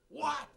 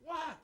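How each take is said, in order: First: It sounds like a startled, surprised reaction. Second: It sounds like a short, irritated reply. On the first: The listener is reacting to unexpected news. "Or you just told me some news and I go" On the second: The listener is busy and does not want interruption. "Or I'm busy and you try to talk and say"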